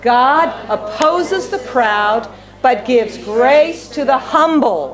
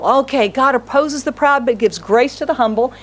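First: Slow, measured reading aloud with the church; slow unison reading. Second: Said in the usual way. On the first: Shown as a demonstration. Preacher leading the congregation in reading the verse, slow and measured. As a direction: read each word slowly together. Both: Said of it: "Read with me both".

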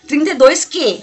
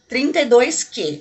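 First: Said in the usual way. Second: "Trinta e dois Q" spelled out slowly, each part distinct; slow dictation. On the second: Shown as a demonstration. Vlogger dictating the shade number for viewers to note, slowly. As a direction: say "Trinta e dois Q" slowly so they can write it down. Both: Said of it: "Anota aí".

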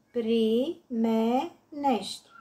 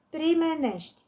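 First: "Primenești" slowly broken up, pri-me-nești; syllable by syllable. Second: Said in the usual way. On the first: Shown as a demonstration. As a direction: give "Primenești" three spaced beats: pri, me, nești. („Primenești” rostit rar, pe silabe: pri-me-nești) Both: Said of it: "Desparte în silabe cuvintele date".

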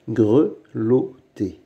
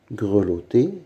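First: "grelotter" slowly, in three separate beats; syllable by syllable. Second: Said in the usual way. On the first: Shown as a demonstration. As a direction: sound out "grelotter" with pauses. Teacher splits word into syllables. (« grelotter » lentement, syllabe par syllabe)

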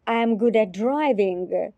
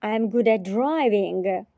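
The two takes are said the same way.

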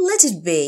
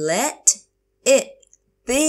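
First: Said in the usual way. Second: Let, it, be, each on its own; slow teacher model of "Let it be"; word by word. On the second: Shown as a demonstration. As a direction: pause between the words of "Let it be". Teacher repeats phrase word by word.

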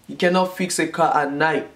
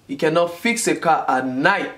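No difference in how they are said.

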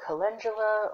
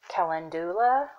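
First: Calendula, stressed on "len", with a j sound; alternate pronunciation. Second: Calendula said with a clear "DOO-la" ending; Calendula, stressed on a long "doo"; alternate pronunciation. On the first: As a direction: say calendula as kuh-LEN-juh-la. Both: Shown as a demonstration. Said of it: "or however you pronounce it".

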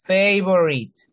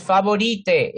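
First: Favorite as English fei-vo-rit; right favorite. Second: Favorite read fa-bo-ri-te, Spanish style; wrong favorite. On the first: Teacher modelling the right English favorite. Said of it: "es favorite". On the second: Teacher showing the wrong Spanish favorite. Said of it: "No es favorite". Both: Shown as a demonstration.

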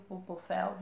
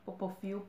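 First: Popofel ending in an open "féu"; unsure pronunciation. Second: Popofil ending in a "fiu" sound; unsure pronunciation. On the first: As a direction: try Popofel with an open "eh" in the last syllable. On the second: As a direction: try Popofil with an "ee" in the last syllable. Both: Shown as a demonstration. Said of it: "não sei".

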